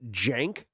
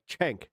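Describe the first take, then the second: First: The name begins with a 'j' sound. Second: The name begins with a 'ch' sound. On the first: The speaker calls it wrong. "like with a J or like a G. I don't think that's right either" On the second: The speaker calls it right. "Like Cenk, like Ch"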